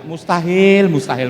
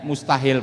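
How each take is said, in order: First: MUSTAHIL thrown out much louder; loud emphatic. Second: Said in the usual way. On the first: Shown as a demonstration. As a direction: hammer the word Mustahil.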